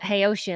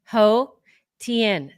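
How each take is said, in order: First: The name begins with 'hey' and sounds like 'ocean'. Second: The name begins with 'ho' and is two words. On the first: The speaker calls it wrong. "I was calling it Hey Ocean, like [name]" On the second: The speaker calls it right. "it's actually two different words, Ho Tien"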